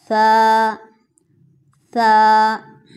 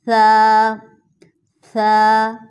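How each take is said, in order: No difference in how they are said.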